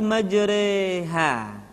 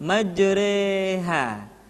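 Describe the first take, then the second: Both takes have the same delivery.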